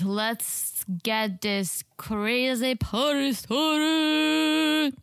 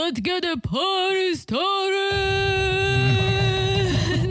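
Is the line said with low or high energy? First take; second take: low; high. First: It is said with weak, low energy. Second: It is said with lively, high energy.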